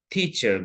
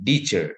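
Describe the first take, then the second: First: The first sound is a voiceless t. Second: The first sound is a voiced d-like sound. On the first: The speaker calls it right. "itu harusnya teacher guru" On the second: The speaker calls it wrong. "voice bergetar, vokal tracknya itu akan menjadi teacher"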